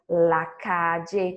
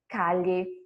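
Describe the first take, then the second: First: The ll sounds like the j in jam. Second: The ll sounds like the y in yes. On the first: "com som de D J" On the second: "com som de I"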